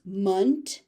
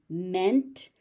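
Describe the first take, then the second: First: Munt with a schwa vowel, like "month" without the h; noun ending. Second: Ment with a clear EH vowel; verb ending. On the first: Teacher contrasting the noun ending, munt with an uh. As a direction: say "munt" with a dull uh. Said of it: "munt as a noun". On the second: Teacher contrasting the verb ending, ment with a clear eh. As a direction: say "ment" with a full open e. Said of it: "ment as a verb". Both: Shown as a demonstration.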